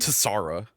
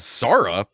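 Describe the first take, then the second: First: The name starts with a ts sound. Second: The name starts with a plain s sound. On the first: The speaker calls it wrong. "I don't think it would be Tsara" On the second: The speaker calls it right. "I'm just gonna say that it is Sara because it starts T S"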